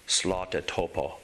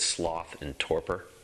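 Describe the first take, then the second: First: It is said imitating a foreign accent. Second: It is said in the speaker's own plain accent. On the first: "he called it slota topo" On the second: "the technical Buddhist term for it is sloth and torpor"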